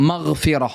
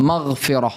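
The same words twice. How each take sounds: The two takes are said the same way.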